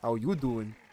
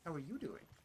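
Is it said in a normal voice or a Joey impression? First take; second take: Joey impression; normal voice. First: It is said in a Joey impression voice. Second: It is said in his own normal voice.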